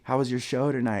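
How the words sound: The voice is soft and seductive. The speaker calls it right. "a four with the sexiest voice ever"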